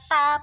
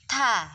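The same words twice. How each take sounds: First: The consonant is released without a breath of air. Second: The consonant is released with a breath of air. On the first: The speaker calls it wrong. "bukan dibaca ta" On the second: The speaker calls it right. "ada aliran nafasnya"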